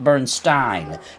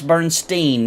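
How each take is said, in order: First: The last syllable sounds like stine. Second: The last syllable sounds like steen. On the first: The speaker calls it wrong. "it would have been Stein" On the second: The speaker calls it right. "because it's German, it's gonna be Steen"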